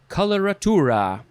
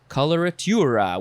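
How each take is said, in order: First: It is said without a 'y' glide sound. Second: It is said with a 'y' glide sound.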